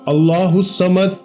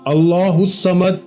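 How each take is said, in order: Both takes have the same delivery.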